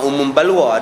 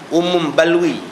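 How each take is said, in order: First: The second word ends with an 'a' sound. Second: The second word ends with an 'i' sound. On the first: The speaker calls it wrong. "bukan umum balwa" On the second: The speaker calls it right. "umum balwi, ya"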